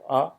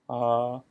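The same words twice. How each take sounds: First: The vowel is held only briefly. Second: The vowel is held about twice as long.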